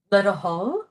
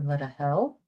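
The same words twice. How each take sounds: First: "hull" with an open, rounded vowel; "hull" with the back vowel, rising at the end; first pronunciation variant. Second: "hell" with a front E vowel; "hell" with the short front vowel; second pronunciation variant. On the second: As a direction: say "let a hell" ending on an E sound. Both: Shown as a demonstration. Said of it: "or let a hell".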